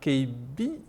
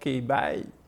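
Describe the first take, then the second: First: The name ends with a 'bee' sound. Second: The name ends with a 'bye' sound. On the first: This is how a French speaker would say it. "il va pas dire K B" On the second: This is how an English speaker would say it. "il va peut-être dire K by"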